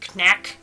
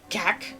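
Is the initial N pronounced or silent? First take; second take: pronounced; silent. First: The word begins with an audible N sound. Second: The word begins with a K sound, no N. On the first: "I'm going to go with knack" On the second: "Or if the N is silent"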